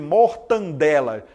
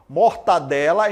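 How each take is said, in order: First: An n sound comes before the d. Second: There is no n sound before the d. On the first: The speaker calls it wrong. "Ninguém fala, né? Mortandela" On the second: The speaker calls it right. "Mortadela em vez de mortandela"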